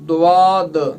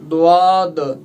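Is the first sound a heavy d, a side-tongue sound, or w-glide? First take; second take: w-glide; w-glide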